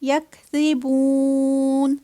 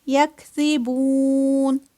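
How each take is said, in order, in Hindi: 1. बीच के व्यंजन का उच्चारण नरमी से किया जाता है। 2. बीच के व्यंजन का उच्चारण नरमी से किया जाता है।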